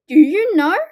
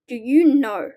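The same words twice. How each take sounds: First: Louder repeat. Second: Said in the usual way. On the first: Acted. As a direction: call the question out louder, teasing the kids. Repeated question to children.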